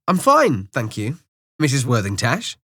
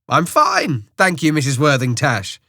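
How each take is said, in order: First: It is said quietly and politely. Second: It is said more loudly.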